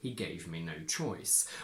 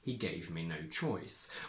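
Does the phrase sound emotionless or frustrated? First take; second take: emotionless; emotionless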